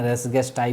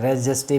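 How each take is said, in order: First: The g is hard, ending in an 'eye' sound. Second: The g is soft, like a j sound. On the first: "बहुत लोग इसको रेस गेस्टाई भी बोलते हैं" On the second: "हम इसको प्यार से बोलते हैं रेस जेस्टे"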